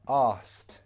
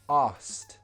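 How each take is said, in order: First: Said quickly with the k sound dropped. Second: The same.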